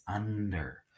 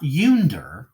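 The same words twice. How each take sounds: First: Said in the usual way. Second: "yunder" opening like the word "you"; mispronounced "yunder", long U stretched out. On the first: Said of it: "with short U on its own". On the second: Shown as a demonstration. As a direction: stress a long YOO at the start of "yunder". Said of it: "with long U on its own".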